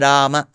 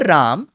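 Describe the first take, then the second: First: The word ends with a short a. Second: The word ends with no final vowel. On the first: The speaker calls it right. "It is Rama" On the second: The speaker calls it wrong. "The North Indian pronunciation of Ram ... that is also wrong"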